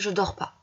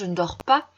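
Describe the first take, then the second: First: 'Ne' is left out entirely. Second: 'Ne' is said fully; the ending is louder. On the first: "vous retirez carrément le ne" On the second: "on prononce plus fort la fin de la phrase"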